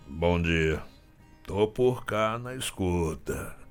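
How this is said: It sounds displeased, as if he disliked something.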